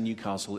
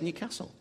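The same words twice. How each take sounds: First: It is said in the general, non-local pronunciation. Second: It is said in an imitated local pronunciation. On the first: "I'm going to say Newcastle in general" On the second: "it would sound fake if I said Newcastle"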